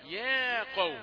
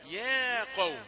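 First: The word ya sounds thin and light. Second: The same.

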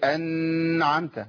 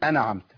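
First: The n sound is held with prolonged nasality. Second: The n sound is cut short quickly. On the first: "ما اقولش انعمت" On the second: "كتير من الناس بيقول انعمت"

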